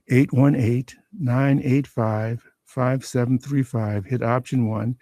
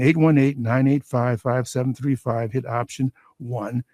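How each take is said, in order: First: The number is read at a slower pace. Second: The number is read at a faster pace.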